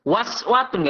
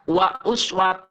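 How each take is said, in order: First: "Wa" runs straight into "swatun" without a stop. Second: A glottal stop separates "wa" and "uswat". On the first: The speaker calls it wrong. "bukan waswatun, nggak bisa" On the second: The speaker calls it right. "tetap hamzahnya harus dibaca"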